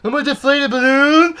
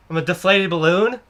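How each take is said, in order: First: High, far-from-usual rising question; mock outraged squeal. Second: Said in the usual way. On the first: Cashier replying to the customer's fff, high mock disbelief. Hammed-up repeat of puzzled reply.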